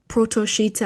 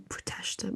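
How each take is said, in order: First: It is said as two parts, Proto plus Sheeta. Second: It is said blended into one word, Proteshta. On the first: The speaker calls it wrong. "you wouldn't pronounce it like that" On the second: The speaker calls it right. "It'd be Proteshta"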